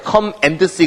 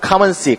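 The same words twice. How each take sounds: First: The word 'and' is said in full. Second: The word 'and' shrinks to an n sound. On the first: The speaker calls it wrong. "come and see 그러지 않죠?" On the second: The speaker calls it right. "은으로 발음되니까"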